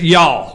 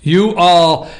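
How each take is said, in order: First: It is said as one contracted word. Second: It is said as two separate words. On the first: The speaker calls it right. "Just y'all. One word or one enunciation" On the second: The speaker calls it wrong.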